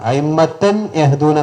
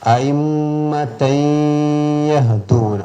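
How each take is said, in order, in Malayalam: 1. n ശബ്ദം y ക്ക് മുമ്പ് വ്യക്തമായി ഉച്ചരിക്കുന്നു. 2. n ശബ്ദം അടുത്ത y യിലേക്ക് മൂക്കിൽ ചേരുന്നു. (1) "എന്ന് ഓതാൻ പാടില്ല. അവിടെ ഇദ്ഹാർ ചെയ്യാൻ പാടില്ല" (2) "തൻവീനെ യായിലേക്ക് ചേർത്ത് മണിച്ചിട്ട് ഓതണം"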